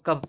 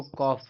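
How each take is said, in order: First: कफ with a short "uh", like "cuff"; students' misreading. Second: कॉफ with a long open "aw" vowel; correct reading. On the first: Retold or imitated. Teacher quoting students' mistake, कफ with short uh. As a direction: quote the mistaken कफ with a short vowel. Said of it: "आप लोग इसको कफ पढ़ देते हो". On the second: Shown as a demonstration. Teacher correcting students' habit, कॉफ with long aw. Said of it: "इसको कॉफ पढ़ते हैं".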